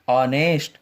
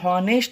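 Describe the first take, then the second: First: The word starts with a vowel, no h. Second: The word starts with an audible h sound. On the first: The speaker calls it right. "एच क्या हो जाएगा बेटा, silent हो जाएगा" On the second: The speaker calls it wrong. "ये हॉनेस्ट नहीं है"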